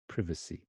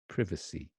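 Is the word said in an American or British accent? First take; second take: British; British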